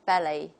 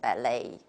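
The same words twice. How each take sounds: First: The stress is on the first syllable. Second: The stress is on the second syllable. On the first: This is the British pronunciation. "the stress is on the first syllable" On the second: This is the American pronunciation. "the American model will just take the opposite"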